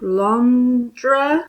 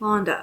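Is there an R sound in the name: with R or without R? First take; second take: with R; without R. First: The name is said with an R sound. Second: The name is said without an R sound. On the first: The speaker calls it wrong. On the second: The speaker calls it right.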